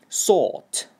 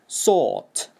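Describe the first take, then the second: Both takes have the same delivery.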